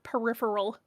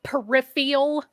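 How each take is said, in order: First: The word is said without an added vowel. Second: The word is said with an extra added vowel. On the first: The speaker calls it right. "everybody who mispronounces the word peripheral" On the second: The speaker calls it wrong. "all the people that say it peripheral"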